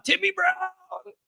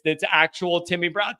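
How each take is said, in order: First: High, slow, stretched-out announcer call of the name; Tony Roberts announcer call. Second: Said in the usual way. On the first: Retold or imitated. Host honoring a donor with an announcer call. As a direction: draw the name out like a classic play-by-play man. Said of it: "with that, oh man, that Tony Roberts voice".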